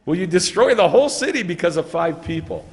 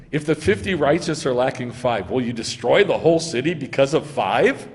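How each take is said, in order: First: Louder, higher, indignant push; disbelieving, insistent plea; pressing challenge. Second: Said in the usual way. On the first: Acted. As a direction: shame him into agreeing. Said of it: "That's how he says it". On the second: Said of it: "now watch how he says it".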